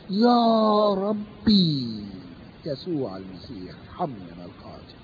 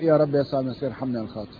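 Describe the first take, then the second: First: It is said with emphasis on rabbi. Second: It is said in a flat monotone. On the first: The speaker calls it right. "فبيركز على كلمة ربي" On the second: The speaker calls it wrong. "الكلام المونوتونس ده"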